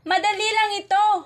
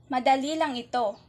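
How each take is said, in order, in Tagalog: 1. Binibigkas ito bilang masayang padamdam. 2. Binibigkas ito bilang payak na pahayag. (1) "ito naman ay nangangahulugang nagbubunyi" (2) "Ito ay nagtatapos ng tuldok at ito ay nagpapahayag"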